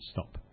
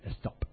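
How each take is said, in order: First: The word starts directly with the s sound. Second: The word starts with an added e vowel. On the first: "He meant stop" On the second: "but he said the estop"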